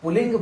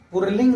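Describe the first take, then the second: First: A doubled l sound with no r. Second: An r sound comes before the l. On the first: The speaker calls it right. "इसको पुल्लिंग बोला जाता है" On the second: The speaker calls it wrong. "इसको पुरलिंग नहीं बोला जाता"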